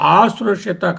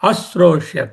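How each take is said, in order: First: The first vowel is long. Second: The first vowel is short. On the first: It would mean 'until it was heard'. The speaker calls it wrong. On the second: It would have been heard. The speaker calls it right.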